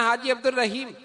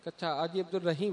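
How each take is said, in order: First: Said in the usual way. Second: Softer, lower echo ending in a rise on "Rahim"; questioning echo. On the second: Acted. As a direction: repeat "Haji Abdul Rahim" quietly as a checking question. Other traveller checks the name.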